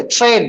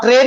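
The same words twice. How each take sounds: First: "ट्रेन" starting like "chrain". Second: "ट्रेन" with a hard separate t before r; plain T-R sound. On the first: Teacher models the TR rule, "ट्रेन" said as chrain. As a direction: say "ट्रेन" with a ch sound before the r. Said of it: "चा का sound आता है". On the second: Teacher shows what not to say, "ट्रेन" with hard T. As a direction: say "ट्रेन" with a crisp T, no ch. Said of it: "आप ट्रेन नहीं बोलते". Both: Shown as a demonstration.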